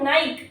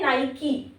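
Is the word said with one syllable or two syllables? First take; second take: one; two. First: It is one syllable with no final vowel. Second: It is two syllables ending in an 'ee' sound. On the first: The speaker calls it wrong. "It's not नाइक" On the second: The speaker calls it right. "ये होता है नाइकी"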